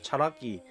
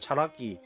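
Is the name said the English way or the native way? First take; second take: native; native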